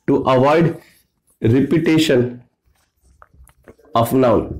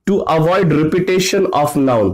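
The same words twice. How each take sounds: First: Chunked dictation. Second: Slow, clear dictation pace. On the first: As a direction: separate phrases with long pauses. (रुक-रुक कर लिखवाना) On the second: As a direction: say it slowly so they can write. (धीरे-धीरे लिखवाना) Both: Shown as a demonstration. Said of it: "तो ये क्या करता है".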